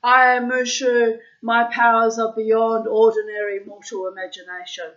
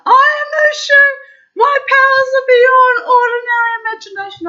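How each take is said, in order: First: Talking toy voice. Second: Much higher, much louder sing-song toy-dragon yell. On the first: Toy dragon speaking when its tummy is pressed, high and loud. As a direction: play the pressed toy dragon's proud boast. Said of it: "it would say". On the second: Toy dragon yelling at the cop it just hit, sing-song shriek. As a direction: blare it out like a toy shrieking on impact. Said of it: "it would start yelling out". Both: Retold or imitated.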